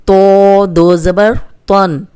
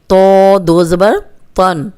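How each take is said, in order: Both takes have the same delivery.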